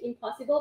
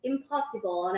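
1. พูดด้วยสำเนียงฝรั่งเศสเลียนแบบค่ะ 2. พูดด้วยสำเนียงอังกฤษธรรมดาค่ะ (1) "ครูภาษาอังกฤษคนนี้สอนการออกเสียง, impossible, แบบนี้ค่ะ" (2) "ไม่ได้นะลูกอย่าหักหลังแม่"

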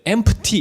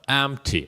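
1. p 소리를 강하고 분명하게 냅니다. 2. p 소리는 거의 들리지 않습니다. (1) "p 같은 철자의 발음을 너무 세게 해버리면 안 돼. empty 이렇게 하시면 안 돼" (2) "죽여주셔야 됩니다"

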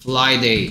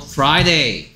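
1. F 뒤에 오는 자음은 L 소리처럼 들려요. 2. F 뒤에 오는 자음은 혀를 말아 올린 R이에요. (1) "플라이데이 여기 있다 그래" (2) "R이 내는 어 소리는 혀가 목구멍 뒤쪽으로 들어가야 되는데"

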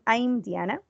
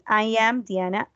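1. El verbo se reduce y se une al pronombre. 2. El verbo se pronuncia como una palabra completa separada. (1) "cualquiera de las dos" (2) "I am or I'm"

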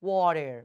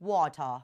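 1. พูดด้วยสำเนียงอเมริกัน ฟังดูนุ่มนวลกว่า 2. พูดด้วยสำเนียงอังกฤษ ฟังดูคมชัดกว่า (1) "แบบอเมริกัน... ดูซอฟๆเนอะดูนุ่มๆ" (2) "แบบ British แบบอังกฤษ"

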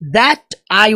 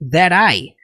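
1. As duas palavras são ditas separadamente. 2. As duas palavras são unidas em uma só. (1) "ele não fala that I will come back" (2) "Ele literalmente junta that com I"

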